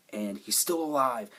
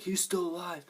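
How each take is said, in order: First: Said in the usual way. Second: High-pitched astonished quote; acted surprise. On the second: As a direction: exclaim it high, like a startled discovery. Onlookers' discovery acted after plain telling.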